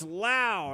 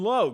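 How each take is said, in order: First: The name rhymes with cow. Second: The name rhymes with go. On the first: The speaker calls it right. "no, it's Lau" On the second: The speaker calls it wrong. "just like Derek Lowe"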